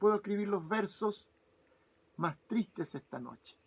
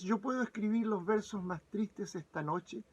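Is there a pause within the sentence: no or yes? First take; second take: yes; no. First: It is split into two parts by a pause. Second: It is said as one unbroken line.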